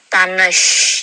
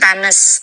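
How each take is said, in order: First: The word ends with an sh sound. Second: The word ends with a plain s sound. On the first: The speaker calls it right. "tapi tanesh ya" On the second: The speaker calls it wrong. "Bukan tanes"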